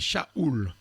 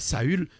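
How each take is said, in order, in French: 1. Le nom se termine par une voyelle 'ou'. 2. Le nom se termine par une voyelle 'u' française. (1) "C'est ou. C'est Shaoul" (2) "Non. En hébreu, le son U n'existe pas"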